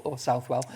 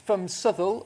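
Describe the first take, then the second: First: "Southwell" said as SOUTH-well, as spelt; "Southwell" with a full "south" and a clear "well"; outsider Southwell. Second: "Southwell" said as SUTH-ull, the local way; "Southwell" with a short "suth" and a swallowed ending. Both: Shown as a demonstration. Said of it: "but it is, it is Southwell".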